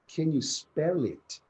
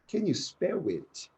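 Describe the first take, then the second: First: The L in spell is clearly pronounced. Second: The L in spell sounds like a vowel. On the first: The speaker calls it right. "Rather than" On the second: The speaker calls it wrong. "students say in the at the beginning of um, their courses"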